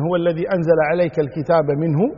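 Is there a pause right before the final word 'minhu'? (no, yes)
no. Minhu runs on from the preceding word without pause. The verses are from God. "إما أن يعود الضمير إلى الله سبحانه وتعالى فيكون"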